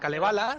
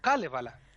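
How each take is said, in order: First: The stress falls on a later syllable. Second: The stress falls on the first syllable. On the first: The speaker calls it wrong. "No es" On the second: The speaker calls it right. "Todas las palabras se acentúan en la primera"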